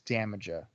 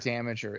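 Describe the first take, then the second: First: The name ends with a 'jah' sound. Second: The name ends with a 'jer' sound. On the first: The speaker calls it right. "It's Damaja" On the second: The speaker calls it wrong. "It's not Damager"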